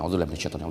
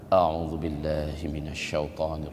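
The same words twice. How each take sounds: First: It is said quickly and repeated in a rush. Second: It is said slowly and in a calm voice. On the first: It does not succeed in calming anger. The speaker calls it wrong. "Jangan coba" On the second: It helps calm anger. The speaker calls it right. "Tapi harus tenang"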